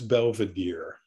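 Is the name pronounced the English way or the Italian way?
English. The name is pronounced the English way.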